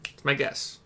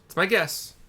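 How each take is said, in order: First: Said in the usual way. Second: Higher, louder, stressing my; emphatic repeat. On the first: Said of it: "repeats it louder". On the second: Shown as a demonstration. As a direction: punch "my" up high. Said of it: "second take pitched up".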